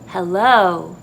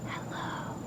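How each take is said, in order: First: It is spoken aloud with full voice. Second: It is whispered with air only.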